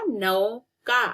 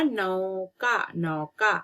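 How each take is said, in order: First: Drawn out नौका, each syllable stretched; slow syllable reading. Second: Said in the usual way. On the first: Shown as a demonstration. Teacher to pupils, saying नौका slowly and clearly. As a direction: spell out नौका slowly for the class. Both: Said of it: "न में औ की मात्रा".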